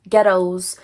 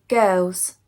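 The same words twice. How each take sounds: First: It is said in a Scottish accent. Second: It is said in an English accent.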